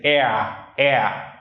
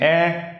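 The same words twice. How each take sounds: First: "air" stretched into a diphthong, countryside Vietnamese accent; countryside Nha Quê accent. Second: Said in the usual way. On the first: Shown as a demonstration. Teacher shows what they say, countryside Vietnamese accent. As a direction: rural Nha Quê gliding vowel on "air". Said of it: "countryside Nha Quê accent". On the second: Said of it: "instead of saying air".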